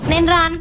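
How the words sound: It is said in a harsh, sharp tone. "అంత harsh గా చెప్తావేటే?"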